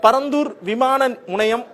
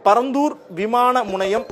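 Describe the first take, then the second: No difference in how they are said.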